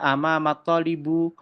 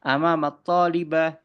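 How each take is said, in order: First: The last word ends with a u vowel. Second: The last word ends with an a sound. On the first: "tidak bisa teman-teman dibaca amamat talibu" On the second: "tidak bisa"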